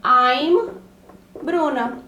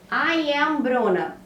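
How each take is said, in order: First: I'm Bruna with I'm as one syllable; short contracted I'm; contraction. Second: I am Bruna, slow, with I am as two words; careful full form I am. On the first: Teacher shows I'm Bruna as the contracted option. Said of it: "Eu posso falar". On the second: Teacher contrasts I am Bruna with the contraction. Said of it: "a frase que eu dei de exemplo". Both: Shown as a demonstration.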